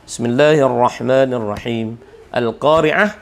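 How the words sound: There is a stop after the first phrase.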